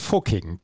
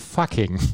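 First: The first vowel is a rounded 'oo' sound. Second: The first vowel is an open 'uh' sound. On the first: This is how locals name the village. "Es ist halt Österreich und deswegen sagen wir" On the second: This is how native English speakers say it. "betonen das U als A. Also heißt es für sie"

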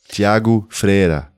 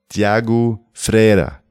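Both takes have the same delivery.

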